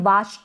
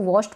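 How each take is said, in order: First: The vowel is an open 'ah' sound. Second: The vowel is a rounded 'aw' sound. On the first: The speaker calls it wrong. "वाश्ड ना पढ़े" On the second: The speaker calls it right. "इसको वॉश्ड पढ़े"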